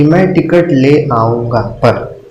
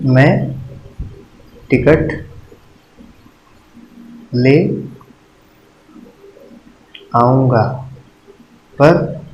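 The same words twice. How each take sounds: First: Slow, even read of the whole example sentence. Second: Each word set apart with long pauses, trailing on पर. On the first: (धीमे से उदाहरण पढ़ना) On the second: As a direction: space out मैं, ticket, ले, आऊँगा and hang on पर. (हर शब्द के बीच लंबा ठहराव, पर पर रुकना) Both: Shown as a demonstration. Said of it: "इससे आपने लोप चिन्ह का उपयोग किया".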